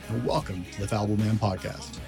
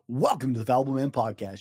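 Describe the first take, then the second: First: It is said in a deep, dramatic voice. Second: It is said in his normal voice.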